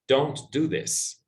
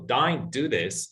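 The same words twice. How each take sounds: First: Said in the usual way. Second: Australian Don't with an open "dine" vowel, slow; slow Australian demo; Australian accent. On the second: Shown as a demonstration. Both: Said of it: "is the same as".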